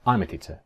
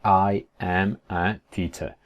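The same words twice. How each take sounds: First: "I'm a teacher" run together; quick everyday contraction; quicker, contracted. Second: Word by word, slowly; slow uncontracted textbook delivery; slow full form. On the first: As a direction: say it as one joined-up phrase. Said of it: "Lo dice así más rápido, más contraído". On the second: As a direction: separate every word of "I am a teacher". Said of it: "pues no te va a decir". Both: Shown as a demonstration.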